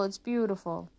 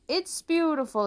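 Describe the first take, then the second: First: Said in the usual way. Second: Much higher, louder gush; exclaiming. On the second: Acted. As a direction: gush over nothing. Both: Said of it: "they exclaimed".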